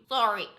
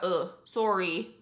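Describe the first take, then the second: First: Short American "sah-ree", open vowel; American sorry. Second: Slow Canadian "soh-ree", rounded O; Canadian sorry. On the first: Vlogger contrasting the vowels, American "sah-ree". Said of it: "how Americans say it". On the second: Vlogger explaining the vowel, slow Canadian "soh-ree". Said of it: "it's, like, more of a". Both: Shown as a demonstration.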